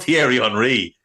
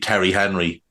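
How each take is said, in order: First: The name is said with French-style sounds. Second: The name is said with English-style sounds. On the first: This is the name as it should sound. The speaker calls it right. "There'd be no, there'd be no Thierry Henry" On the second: Someone else botched the foreign name. The speaker calls it wrong. "it would be Terry Henry, of course, to, to Brian Kerr"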